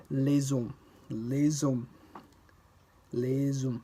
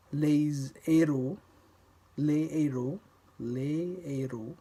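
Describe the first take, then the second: First: Les hommes with the S as z, lez-hommes; liaison with les. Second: Les héros with no z, le-héros; slow, keep les and héros apart; no liaison. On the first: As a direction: link the S of les onto hommes. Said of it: "Pronouncing the S that appears at the end of les". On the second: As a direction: pas de liaison devant le h aspiré. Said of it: "No liaison occurs". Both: Shown as a demonstration.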